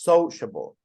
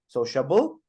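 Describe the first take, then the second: First: The stress is on the first syllable. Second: The stress is on the last syllable. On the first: The speaker calls it right. "absolutely, on the first" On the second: The speaker calls it wrong. "Or the last"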